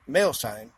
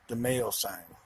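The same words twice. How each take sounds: First: Louder, incredulous repeat; incredulous echo. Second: Said in the usual way. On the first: Real, not acted. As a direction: throw it back louder, in disbelief. Incredulous repeat of what he named.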